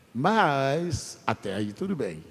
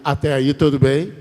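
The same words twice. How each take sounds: First: Said in the usual way. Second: "Até aí tudo bem" called out louder for the crowd to echo. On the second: Shown as a demonstration. Preacher leading the congregation to repeat, louder call-out.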